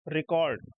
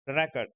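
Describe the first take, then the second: First: record with a short light ri and a long stressed kord, re-CORD; record said as the verb, reCORD; verb stress second syllable. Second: record with the stress on the first syllable, RE-cord; record said as the noun, REcord. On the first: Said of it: "second syllable के ऊपर stress आता है". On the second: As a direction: lean on the opening syllable of record, REkord. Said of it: "stress जो होता है वो first वाले syllable". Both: Shown as a demonstration.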